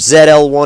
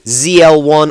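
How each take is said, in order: First: The letter Z is said the British way. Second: The letter Z is said the American way.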